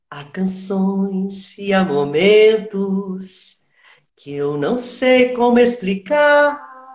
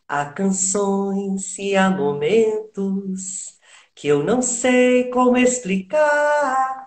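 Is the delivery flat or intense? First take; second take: intense; flat. First: It is said with strong intensity and emotion. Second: It is said flatly, with little intensity. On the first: The speaker calls it right. "Olha a intensidade que, que ela fez" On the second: The speaker calls it wrong. "estava ainda chapadinho"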